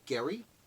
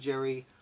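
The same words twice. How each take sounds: First: The name begins with a hard G sound. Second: The name begins with a J sound. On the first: "the name is pronounced Gary" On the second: "I'm going to stick with Gerry"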